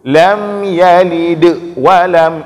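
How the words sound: Yalid ends with a strong bounce and a stop. The speaker calls it wrong. "guna pemerintah qalqalah sehingga agak gepiu ... itu salah"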